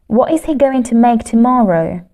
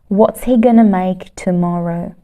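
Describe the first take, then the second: First: Every word is said fully without reductions. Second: It is said faster with contractions and gonna.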